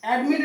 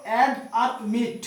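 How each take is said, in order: First: Said in the usual way. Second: "অ্যাড" and "মিট" said as two separate syllables; split into syllables. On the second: Shown as a demonstration. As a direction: break the word into "অ্যাড", then "মিট". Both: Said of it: "দুবার উচ্চারণ করা হচ্ছে".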